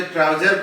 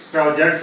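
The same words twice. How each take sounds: First: ट्राउजर with no final s; wrong form. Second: ट्राउजर्स with a final s; correct form. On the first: Teacher rejecting a non-word for learners, ट्राउजर without s. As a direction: end ट्राउजर on the r, dropping the s. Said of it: "ट्राउजर कोई शब्द नहीं होता". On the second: Teacher correcting learners, ट्राउजर्स ending in s. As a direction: finish ट्राउजर्स on an s after the r. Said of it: "ट्राउजर्स होता है". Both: Shown as a demonstration.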